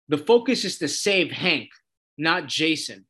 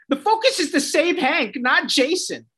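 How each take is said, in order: First: Said in the usual way. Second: High, whiny mock imitation; sing-song it back to ridicule her; mocking Dove. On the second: Vlogger mocking Dove's line to viewers, high and whiny. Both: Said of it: "And then she goes".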